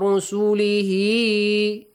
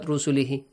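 First: The final vowel is drawn out long. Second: The final vowel is cut short. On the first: The speaker calls it right. "So you should extend the sound" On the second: The speaker calls it wrong. "not rusulihi, hi, not only a kasra"

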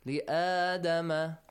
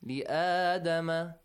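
First: The alif vowel is held for two counts. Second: The same.

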